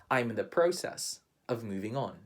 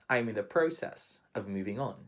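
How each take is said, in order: Both takes have the same delivery.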